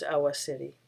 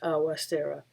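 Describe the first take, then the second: First: The name is said in the family's form. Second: The name is said in its common form. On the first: This is how the family says the name. The speaker calls it right. "the proper pronunciation" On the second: This is how most people say the name. The speaker calls it wrong. "the common pronunciation of his name"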